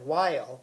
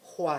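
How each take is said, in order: First: It begins with a plain w sound. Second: It begins with a breathy hw sound.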